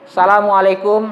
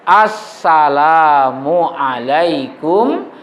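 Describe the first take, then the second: First: The greeting starts without the 'as-' article sound. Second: The greeting starts with the 'as-' article sound. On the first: The speaker calls it wrong. "tidak ada pakai alif lam lagi" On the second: The speaker calls it right. "ada alif lamnya"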